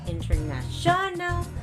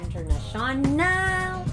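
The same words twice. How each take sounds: First: The stress is on the fourth syllable. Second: The stress is on the fifth syllable. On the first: "not international on the fourth, that's wrong" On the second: "and not also international on the fifth"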